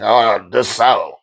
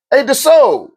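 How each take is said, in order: First: Slow, drawn-out, falling groan of a greeting; slow and let down, in usual pitch; unenthusiastic name call. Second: High, drawn-out name call; pitched-up hailing call. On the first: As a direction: say the name with no zeal. Same name said the other way. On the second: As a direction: hail someone eagerly from a distance. Calling a name out, first way. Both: Acted.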